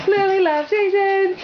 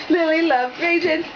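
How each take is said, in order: First: "Lily" stressed, pitched higher and louder; emphatic repeat. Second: Said in the usual way. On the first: Shown as a demonstration. Repeating to the toddler, "Lily" stressed and higher. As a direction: punch "Lily" brighter for the little girl.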